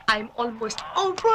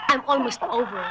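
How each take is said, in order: First: Slow, stretched-out "over"; drawn-out repeat. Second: Said in the usual way. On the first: Acted. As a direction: drag out the last word. (pahabang bigkas)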